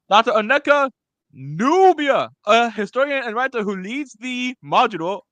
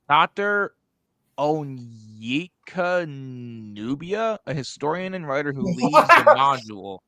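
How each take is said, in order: First: It is read in a King Julian voice. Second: It is read in his normal voice.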